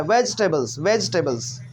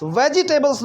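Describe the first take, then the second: First: वेजिटेबल्स said in three syllables, vej-te-bals, no i after the j; correct pronunciation. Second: वेजिटेबल्स said in four syllables, ve-ji-te-bals, with a full i after the j; wrong pronunciation. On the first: Teacher models the right way for students, vej-te-bals. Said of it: "ऐसा करके". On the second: Teacher shows students the wrong way, ve-ji-te-bals. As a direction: sound out वेजिटेबल्स as ve-ji-te-bals, the common mistake. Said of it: "वेजिटेबल्स नहीं बोलना है". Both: Shown as a demonstration.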